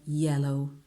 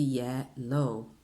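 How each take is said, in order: First: Yellow said short, one syllable; quick English yellow. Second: Yellow with a long double L, Italian way; Italian-style yellow. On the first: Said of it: "Veloce, yellow". (yellow veloce, una sillaba) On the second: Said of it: "in italiano diresti yellow". (yellow all'italiana, con la doppia L) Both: Shown as a demonstration.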